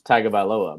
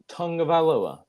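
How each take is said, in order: First: The first syllable has no 'ng' sound. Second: The first syllable has an 'ng' sound. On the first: The speaker calls it wrong. "I've always said their last name is Tagovailoa because there's no U, there's no N, there's no G" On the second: The speaker calls it right. "my wife has corrected me and said it's Tungavailoa"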